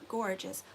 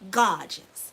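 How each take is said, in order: First: The first syllable is a plain 'gor' sound. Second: The first syllable is an open 'gah' sound. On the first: The speaker calls it wrong. "but not gorgeous" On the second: The speaker calls it right. "G A"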